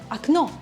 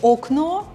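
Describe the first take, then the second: First: The first vowel is pronounced like A. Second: The first vowel is pronounced like O. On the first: The speaker calls it right. "the first letter O is not stressed, so I'm saying it as A" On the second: The speaker calls it wrong. "You can totally say окно. Everybody will understand you"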